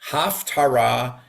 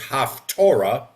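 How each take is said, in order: First: The middle syllable sounds like 'tar', not 'tor'. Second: The middle syllable sounds like 'tor', as in Torah. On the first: The speaker calls it right. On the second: The speaker calls it wrong.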